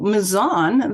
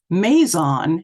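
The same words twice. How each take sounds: First: The stress is on the second syllable. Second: The stress is on the first syllable. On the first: This is the form used by local residents. The speaker calls it right. "the local pronunciation, is of course the true or correct pronunciation" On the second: This is the form used by outsiders to the area. The speaker calls it wrong. "on the first syllable. ... Following this convention, Maison would be pronounced Maison"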